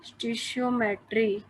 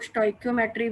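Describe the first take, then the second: First: Stoichiometry as "sti-shio-metry"; usual pronunciation. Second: Stoichiometry as "stoy-kio-metry"; alternate pronunciation. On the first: Teacher gives common form of stoichiometry: "sti-shio-metry". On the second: Teacher notes some say stoichiometry "stoy-kio-metry". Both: Shown as a demonstration. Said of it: "कई लोग stoichiometry भी बोलते हैं".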